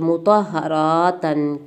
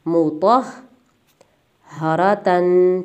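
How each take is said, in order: First: The h is said once, run straight through. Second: The h is held doubled across the split. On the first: The speaker calls it wrong. "फिर यूँ नहीं बनता लहजा कि मुतहरातन, खींचने वाला लहजा नहीं बनता" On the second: The speaker calls it right. "लहजा जो सही है वो अदा इस तरह होता है"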